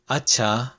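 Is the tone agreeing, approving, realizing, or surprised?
agreeing. It is said in a plain, agreeing tone. It means okay.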